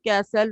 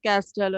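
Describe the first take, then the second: First: The t sound is silent. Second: The t sound is pronounced. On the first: The speaker calls it right. "we read it castle, It is silent" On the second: The speaker calls it wrong. "not castle"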